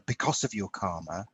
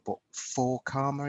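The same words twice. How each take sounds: First: "because" leaned on, rising, in "because of your karma"; stress on because. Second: "for" set apart and stressed against "because". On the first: To the host, stressing "because" as the wrong word. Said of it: "the accent on the word "because". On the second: To the host, stressing "for" as the right word. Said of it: "don't happen to you because of karma". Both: Shown as a demonstration.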